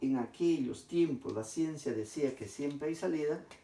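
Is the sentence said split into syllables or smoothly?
smoothly. The sentence flows smoothly without breaks between syllables.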